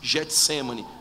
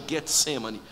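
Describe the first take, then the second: First: The first G is soft, like a 'zh' sound. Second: The first G is hard, like in 'go'. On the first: This is the usual everyday pronunciation. The speaker calls it wrong. "a gente diz Getsemane" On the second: This follows the original Greek sound. The speaker calls it right. "mas na verdade é Getsemane"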